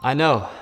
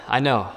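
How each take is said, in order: Both takes have the same delivery.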